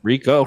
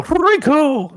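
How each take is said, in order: First: Said in the usual way. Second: The name "Rico!" cried out much higher and louder; excited shout. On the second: Real, not acted. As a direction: call "Rico!" like a fan in the stands.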